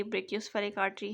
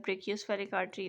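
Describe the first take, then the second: First: Said in the usual way. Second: Brachiospheric artery said slowly, each syllable spelled out; slow careful repeat. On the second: Shown as a demonstration. (धीरे-धीरे साफ़ दोहराना)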